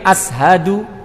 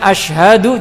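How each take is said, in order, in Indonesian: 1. Kata ini memiliki bunyi s biasa. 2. Kata ini memiliki bunyi sh. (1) "jadi ashadu" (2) "Mestinya asyhadu"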